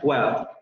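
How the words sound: The final r sound is dropped entirely. "aquí pronuncian well"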